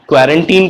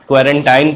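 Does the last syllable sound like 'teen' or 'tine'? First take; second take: teen; tine. First: The last syllable sounds like 'teen'. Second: The last syllable sounds like 'tine'. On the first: The speaker calls it right. "कुछ लोग इसको क्वारंटीन कहते हैं" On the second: The speaker calls it wrong. "कुछ लोग इसे क्वारंटाइन कहते हैं"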